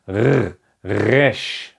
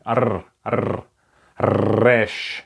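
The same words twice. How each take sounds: First: "R, resh" with a gargled throat R; guttural R. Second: "R, R, resh" with a rolled tongue-tip R. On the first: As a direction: rasp the R of "resh" deep in the throat. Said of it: "this is exactly the R sound". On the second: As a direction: trill the R in "R, R, resh". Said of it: "the old pronunciation is R". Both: Shown as a demonstration.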